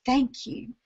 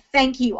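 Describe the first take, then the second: First: Soft unvoiced whisper, much softer. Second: Said in the usual way. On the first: A dying dog's felt thanks, whispered. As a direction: breathe the thanks out without voice.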